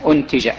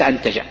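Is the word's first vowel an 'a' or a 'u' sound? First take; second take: u; a. First: The first vowel is a 'u' sound. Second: The first vowel is an 'a' sound. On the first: The speaker calls it right. "تقرأ بضم الألف" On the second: The speaker calls it wrong. "وليس"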